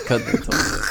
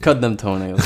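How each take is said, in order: First: Breathy unvoiced whisper. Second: Said in the usual way. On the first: Shown as a demonstration. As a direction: whisper it like a secret. Repeated line whispered.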